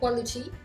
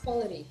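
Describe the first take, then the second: First: The middle t is a clear t. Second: The middle t sounds like a d. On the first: "on peut dire quality" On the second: "le T deviendra un D"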